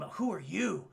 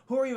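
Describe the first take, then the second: First: Said in the usual way. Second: Raised, higher-pitched mock demand; pressing challenge. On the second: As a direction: push the question harder, acted. Challenge repeated with more force.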